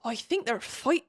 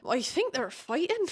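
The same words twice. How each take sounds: First: A hint of Hagrid's West Country accent for Riddick. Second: A lightly voiced Riddick in an unplaceable accent; a vague unplaceable accent, lightly put on; odd accent. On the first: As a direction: lightly put on Hagrid accent, cut off. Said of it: "why does he sound like Hagrid?". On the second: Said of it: "I don't even know what accent that was".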